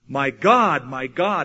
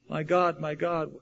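First: It is screamed loudly, like a roar. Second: It is said quietly, in a normal voice.

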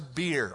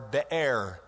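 First: It sounds like the English drink word. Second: It does not sound like the drink word. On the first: The speaker calls it wrong. "It's not like a brewery or anything" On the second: The speaker calls it right. "it would be the better translation, or pronunciation"

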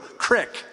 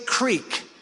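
First: The vowel is a short i sound. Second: The vowel is a long ee sound. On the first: The speaker calls it wrong. "No, you didn't say it right" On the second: The speaker calls it right. "we would say creek"

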